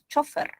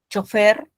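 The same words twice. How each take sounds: First: The stress is on the first syllable. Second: The stress is on the last syllable. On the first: "pero también, dice la academia, puedes pronunciar chofer" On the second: "la usamos como palabra aguda, sin tilde"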